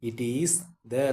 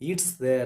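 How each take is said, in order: First: The words 'it is' are said in full. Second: The words 'it is' are contracted to 'it's'.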